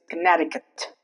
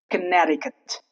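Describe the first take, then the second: The two takes are said the same way.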